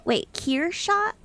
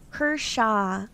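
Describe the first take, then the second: First: Kershaw rising high, surprised, Wait drawn out; surprised check. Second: Kershaw said as KER-shaw, two syllables; new pronunciation. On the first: Real, not acted. Streamer surprised by a viewer's pronunciation correction. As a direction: say Kershaw as KEER-shah with a startled rising question. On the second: Shown as a demonstration. Streamer checks a viewer's correction, saying it carefully. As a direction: try Kershaw as KUR-shah slowly. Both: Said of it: "Is that how you say it?".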